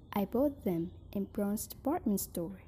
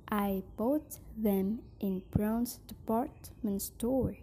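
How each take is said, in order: First: "I bought them in Brown's department store." in one breath; smooth single phrase. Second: "I bought them in Brown's department", a pause, then "store"; phrased in chunks. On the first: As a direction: say the whole sentence without a break. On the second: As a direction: break before "store". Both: Shown as a demonstration. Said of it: "phrasing and intonation".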